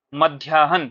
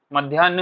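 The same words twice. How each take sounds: First: मध्याह्न as "madhyaa-han", h before n; correct pronunciation. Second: मध्याह्न as "madhyaan-n", without the h; wrong pronunciation. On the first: Teacher shows students the right order, correctly pronounced. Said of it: "क्या होता है". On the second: Teacher quotes the common mistake, mispronounced. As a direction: drop the "h" from मध्याह्न. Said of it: "नहीं होता है आपका". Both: Shown as a demonstration.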